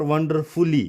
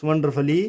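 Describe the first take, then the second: First: "wonderfully" as wonder-FOO-lee; wrong full U. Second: "wonderfully" as wonder-fuh-lee; silent U. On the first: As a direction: give "wonderfully" a full oo in ful. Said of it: "it's not wonderfully". ("wonderfully" में यू बोलकर, फुली) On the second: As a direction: weaken ful to fuh in "wonderfully". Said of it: "it's wonderfully". ("wonderfully" को वंडरफली, यू silent) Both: Shown as a demonstration.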